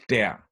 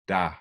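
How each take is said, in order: First: The word is stressed with its full vowel. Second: The word is unstressed with a reduced vowel. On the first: "when der is stressed, it's pronounced der" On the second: "when it's not, which is often the case, it's pronounced da"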